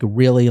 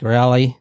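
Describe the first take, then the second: First: It is said with a standard vowel. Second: It is said with a Houston drawl vowel.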